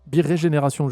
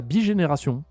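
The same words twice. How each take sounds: First: Birégénération, said in full with the ré syllable put back; corrected word. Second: Bigénération, said wrongly as bi-génération with the ré syllable dropped; garbled word. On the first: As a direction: fix it to Birégénération, every syllable there. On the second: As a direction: stumble over bigénération, missing the ré. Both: Shown as a demonstration. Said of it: "je sais pas comment on dit".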